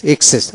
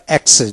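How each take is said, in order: First: এক্সেস said as ikses, with an i sound at the start; এক্সেস pronounced ikses; first accepted pronunciation. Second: এক্সেস said as ekses, with an e sound at the start; এক্সেস pronounced ekses; second accepted pronunciation. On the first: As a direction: give এক্সেস its ik- variant, ikses. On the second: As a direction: give এক্সেস its ek- variant, ekses. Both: Shown as a demonstration. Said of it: "দুটো উচ্চারণ ঠিক".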